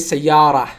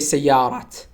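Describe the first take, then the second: First: The word ends without any t sound. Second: The word ends with a clear t sound. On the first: The speaker calls it right. "We say" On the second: The speaker calls it wrong. "We don't pronounce te at the end of the word. We don't say"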